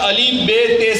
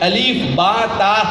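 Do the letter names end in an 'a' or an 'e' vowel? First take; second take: e; a. First: The letter names end in an 'e' vowel. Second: The letter names end in an 'a' vowel. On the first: "हमको पढ़ाया जाता था" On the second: "इस तरह से पढ़ना चाहिए"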